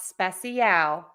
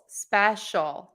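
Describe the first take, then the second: First: The word is said with three syllables. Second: The word is said with two syllables. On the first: The speaker calls it wrong. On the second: The speaker calls it right. "it's just two syllables"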